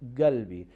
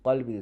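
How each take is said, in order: First: It starts with a hard g sound. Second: It starts with a deep uvular q sound.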